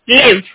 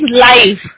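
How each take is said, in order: First: The vowel is short, as in 'give'. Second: The vowel is a long glide, as in 'five'. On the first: Someone resides somewhere. "I live in Delhi, matlab main Delhi mein rehti hu" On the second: Something is shown directly as it happens. "जब आप TV पे broadcast देखते हो लिखा हुआ आता है ना? Then it becomes लाइव"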